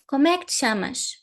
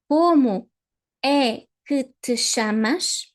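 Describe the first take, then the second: First: The phrase is spoken quickly with reduced sounds. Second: The phrase is spoken slowly and clearly. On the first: This is how native speakers actually say it. "the fast version" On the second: Beginners can hear each sound.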